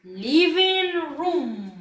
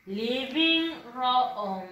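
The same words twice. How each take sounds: First: "living room" with one long oo, "ruum"; correct pronunciation. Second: LIVING ROOM with each written O sounded, "ro-om"; read as spelled. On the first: Teacher showing pupils how it is pronounced, slow clear model. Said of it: "Se pronuncia". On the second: Teacher showing pupils how living room is written, read as spelled. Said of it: "Miss, ¿y así se pronuncia? No, no se pronuncia así". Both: Shown as a demonstration.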